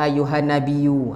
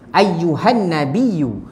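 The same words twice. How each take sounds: First: It is read quickly with the doubled y shortened. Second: It is read carefully with the doubled y held. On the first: The speaker calls it wrong. "kadang-kadang kita nak baca cepat kan" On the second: The speaker calls it right. "sepatutnya ayyu"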